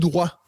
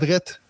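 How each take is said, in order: First: It ends without a T sound. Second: It ends with a clear T sound. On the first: "Il y a un T à la fin, là, mais vous le prononcez pas" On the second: "alors que nous, au Québec, on les dit"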